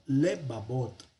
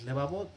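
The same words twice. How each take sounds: First: Lebabot with a reduced first E, drawn out slowly; "lebabot" measured out, with sheva after the L; sheva pronunciation. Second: Lebabot with a full long E; "lebabot" with an unreduced tsere in the first syllable; wrong long-E form. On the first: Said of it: "es decir, con un sheva". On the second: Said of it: "que es una E larga". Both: Shown as a demonstration.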